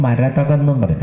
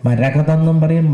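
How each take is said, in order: First: മരതകം with ta before ka, "ma-ra-tha-kam"; മരതകം said tha then kam, the alternate form; marathakam pronunciation. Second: മരകതം with ka before ta, "ma-ra-ka-tham"; മരകതം said ka then tham, the first of two forms; marakatham pronunciation. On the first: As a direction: say മരതകം, swapping to tha in the middle. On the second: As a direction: say മരകതം, the ka sound in the middle. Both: Shown as a demonstration. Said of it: "രണ്ടും ഒന്ന് തന്നെയാണ്".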